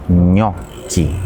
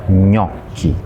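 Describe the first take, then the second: The two takes are said the same way.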